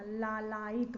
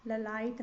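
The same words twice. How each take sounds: First: लालायित with long first laa; correct pronunciation. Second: ललायत with short first la; wrong pronunciation. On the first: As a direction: stretch the first vowel of लालायित. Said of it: "होता है". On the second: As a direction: hurry the first vowel of ललायत. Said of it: "नहीं होता". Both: Shown as a demonstration.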